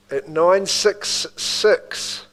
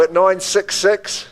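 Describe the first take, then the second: First: Nine six six drawn out slowly in a Kiwi accent. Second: Said in the usual way. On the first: Real, not acted. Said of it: "Did I say that in my Kiwi accent a bit much?". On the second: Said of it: "Did I say that in my Kiwi accent".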